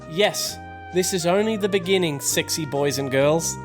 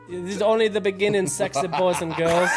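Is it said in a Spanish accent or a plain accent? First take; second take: plain accent; Spanish accent. First: It is said in the speaker's own accent. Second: It is said in a put-on Spanish accent.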